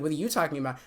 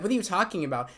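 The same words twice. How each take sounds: First: "you" stressed to turn the question back. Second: Said in the usual way. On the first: Retold or imitated. Girl throwing the question back at them, stress on "you". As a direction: lean on "you" in the retort.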